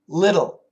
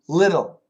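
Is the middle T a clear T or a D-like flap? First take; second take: flap; flap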